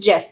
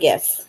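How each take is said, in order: First: The word begins with a J sound. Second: The word begins with a hard G sound. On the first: The speaker calls it right. "So it's GIF, people, like the peanut butter" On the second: The speaker calls it wrong. "It's not a GIF"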